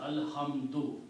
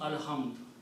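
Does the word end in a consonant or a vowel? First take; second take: vowel; consonant. First: The word ends with a short u vowel. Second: The word ends on a consonant, with no vowel. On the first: More words follow without stopping. "if there are other words after that, then I will continue pronouncing as alhamdu" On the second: The word ends the phrase with a stop after it. "if I stop here, then I will pronounce alhamd"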